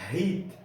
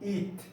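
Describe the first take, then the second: First: The word begins with an audible h sound. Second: The word begins directly with a vowel. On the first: "o re ele tem um som" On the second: "como alguns falam, deixando a letra re sem som"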